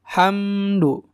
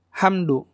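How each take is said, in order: First: The m sound is held and flows slightly. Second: The m sound is cut off abruptly. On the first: The speaker calls it right. "ada ditahan sedikit gitu ya. Mengalir sedikit" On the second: The speaker calls it wrong. "Enggak gitu"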